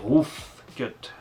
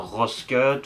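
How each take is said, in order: First: The first word ends with a clear f sound. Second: The first word ends without an f sound. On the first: The speaker calls it right. "c'est Roof Cut avec un grand F" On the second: The speaker calls it wrong. "et pas Ross Cut ou Rouge Cut"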